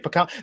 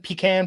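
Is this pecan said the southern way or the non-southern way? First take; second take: non-southern; southern. First: Pecan is said with a non-southern pronunciation. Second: Pecan is said with a southern pronunciation. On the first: "as I would say" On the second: "southern pronunciation"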